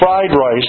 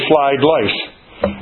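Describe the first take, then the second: First: The words are said with r sounds. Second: The words are said with l sounds. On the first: "we say fried rice" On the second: "they say flied lice"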